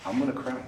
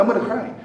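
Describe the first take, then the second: First: Said in the usual way. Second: Higher whiny pretend whimper, a touch louder; mock whiny crying. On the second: Preacher mocking the congregation's pride, high whiny mock cry. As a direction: whine like a sulking child with hurt pride. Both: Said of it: "we cry".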